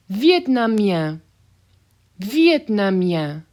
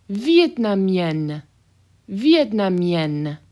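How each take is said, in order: First: Vietnamien slow, ending nasal with no N. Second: Vietnamienne slow with a hard final N. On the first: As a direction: draw out Vietnamien, no final N. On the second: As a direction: stretch Vietnamienne and hit the N. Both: Shown as a demonstration. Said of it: "Those N's are hard".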